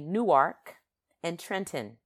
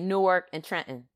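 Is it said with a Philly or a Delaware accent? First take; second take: Delaware; Philly. First: It is said in a Delaware accent. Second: It is said in a Philadelphia accent.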